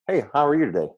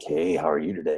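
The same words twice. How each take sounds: First: It sounds normal and friendly. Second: It sounds like a creepy stalker.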